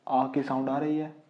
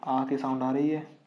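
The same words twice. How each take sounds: The two takes are said the same way.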